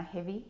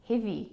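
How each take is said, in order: First: Said in the usual way. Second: Heavy with an accidental Australian accent; the word Heavy in a light Australian accent. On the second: Shown as a demonstration. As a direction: let heavy slip into Australian. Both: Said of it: "Goodness, I sound Australian".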